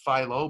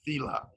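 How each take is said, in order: First: The word ends in an 'oh' sound. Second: The word ends in an 'ah' sound. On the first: This is how most people say it. "which everybody pronounces philo" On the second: This is how the speaker's family says it. "but we pronounce it fila"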